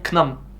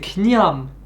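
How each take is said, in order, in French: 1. Le mot se dit sans 'y' après le 'n'. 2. Le mot se dit avec un 'y' après le 'n'. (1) "on pourrait tenter de dire knam" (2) "c'est kniam avec un y en fait"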